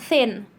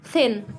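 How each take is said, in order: Both takes have the same delivery.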